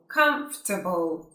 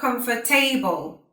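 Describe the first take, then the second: First: The word is said with three syllables. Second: The word is said with more than three syllables. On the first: The speaker calls it right. "Three syllables" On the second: The speaker calls it wrong. "not comfortable"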